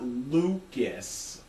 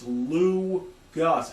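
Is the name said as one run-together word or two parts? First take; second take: one word; two parts. First: The name is run together into one word. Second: The name is said as two separate parts. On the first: The speaker calls it wrong. "It's not Lucas" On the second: The speaker calls it right. "It's Lou Gus"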